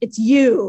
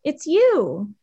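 First: It is said angrily, with a harsh tone. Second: It is said calmly, without anger.

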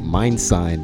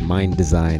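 First: The name is said with two syllables. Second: The name is said with three syllables. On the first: The speaker calls it wrong. "I was pronouncing it Mind Sign" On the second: The speaker calls it right. "but it's Mind Design"

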